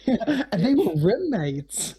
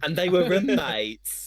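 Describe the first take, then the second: First: Slow awkward deadpan. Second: Slow, high mock deadpan; mocking imitation. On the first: Shown as a demonstration. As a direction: drag it out awkwardly. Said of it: "That was awful". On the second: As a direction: copy that awkward line, hammed up. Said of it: "That's how you just said that".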